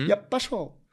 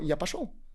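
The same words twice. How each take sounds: First: The 'п' sound is held long and doubled. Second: The 'п' sound is short and single. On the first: I would go. "я бы пошел, это я, я пошел" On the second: I went. "попробуйте П неудвоенную сделать"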